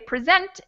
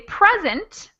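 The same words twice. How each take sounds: First: The stress is on the second syllable. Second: The stress is on the first syllable. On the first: It is the verb. "you'll know that I'm talking about the verb" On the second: It is the noun meaning a gift, or 'here'. "you might think I mean a gift, or you might think you, I mean that I am here"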